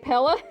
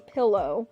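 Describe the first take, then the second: First: The word is said with a regional rural accent. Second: The word is said with a standard accent. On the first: The speaker calls it wrong. "in my weird hillbilly-ish accent" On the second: The speaker calls it right. "You say pillow"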